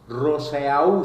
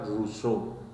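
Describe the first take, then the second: First: It is read letter by letter, Spanish-style. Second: It is said with French pronunciation. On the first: "se escribe" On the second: "pero se pronuncia"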